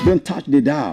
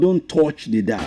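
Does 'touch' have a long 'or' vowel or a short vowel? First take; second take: short vowel; long 'or'. First: Touch has a short vowel without a long 'or'. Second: Touch has a long 'or' vowel, like torch. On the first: The speaker calls it right. "very short R sound" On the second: The speaker calls it wrong. "It's not"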